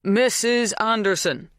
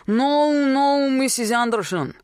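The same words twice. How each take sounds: First: Slow, higher-pitched, spelt-out name; slow enunciation. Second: Put-on high, loud Polish-accented agreement; strong foreign accent. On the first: Bernard prompting a Polish farmhand, slowly enunciated. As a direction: say it slowly for a foreigner. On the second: Polish farmhand catching on at last, strongly accented. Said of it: "His accent was strong". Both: A narrator's reading.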